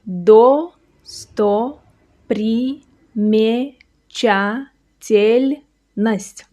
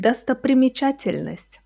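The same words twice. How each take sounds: First: Drawn out syllable by syllable, very slow; very slow demo. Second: Said in the usual way. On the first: Shown as a demonstration. Teacher sounding out the long word very slowly. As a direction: spell it out slowly for the learner. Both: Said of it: "Watch slowly".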